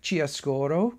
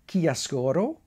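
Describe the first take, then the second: First: It is said with an English pronunciation. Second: It is said with an Italian pronunciation. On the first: "the English tend to call it Chiaroscuro" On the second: "I believe the Italians pronounce it Chiaroscuro"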